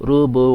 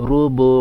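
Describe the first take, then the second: Both takes have the same delivery.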